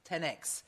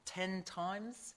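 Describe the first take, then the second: First: The X is read as the letter ex. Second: The X is read as the word times. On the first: The speaker first planned to say it this way. "I was going to say 10X" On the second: Someone else said it this way. "someone else said, no, it's 10 times"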